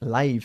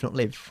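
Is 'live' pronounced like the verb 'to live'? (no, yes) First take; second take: no; yes. First: It is not pronounced like the verb 'to live'. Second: It is pronounced like the verb 'to live'. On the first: It means broadcast as it happens. The speaker calls it right. "se pronuncia live cuando significa en directo" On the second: It means to be alive. The speaker calls it wrong.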